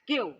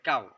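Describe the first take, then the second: First: It is said nasally in a put-on foreign accent. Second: It is said plainly in the local accent. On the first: "মুখ এদিকে নিয়ে নাকটা এরকম ভাবে দিয়ে বলতে হইব কেউ" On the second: "লোকাল ভাষায় বলে কাউ"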